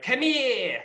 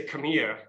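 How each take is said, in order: First: High, loud, exaggerated Rhode Island come here with the r dropped; overdone accent. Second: Plain Rhode Island come here. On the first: Actor imitating the trooper's accent, overplayed and high. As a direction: ham up "Come here" as "come heah". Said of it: "they were a little over dramatized". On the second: Shown as a demonstration. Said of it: "he was like".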